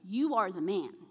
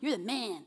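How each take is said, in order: First: It sounds like a grave, serious accusation. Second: It sounds like friendly, admiring praise.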